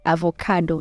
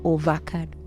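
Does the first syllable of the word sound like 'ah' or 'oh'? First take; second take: ah; oh. First: The first syllable has an 'ah'-like vowel. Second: The first syllable has an 'oh'-like vowel. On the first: The speaker calls it right. "It's avo" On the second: The speaker calls it wrong. "not ovo"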